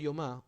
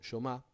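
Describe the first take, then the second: First: It is said in a neutral Spanish accent. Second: It is said in an Argentine Spanish accent.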